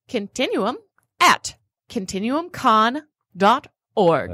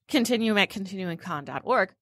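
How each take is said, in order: First: It is said slowly and deliberately. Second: It is said at normal conversational speed.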